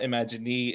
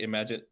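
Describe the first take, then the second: First: An extra vowel is sounded after the final n. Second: The word ends on n with no extra vowel. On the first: The speaker calls it wrong. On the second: The speaker calls it right. "You don't hear that E sound"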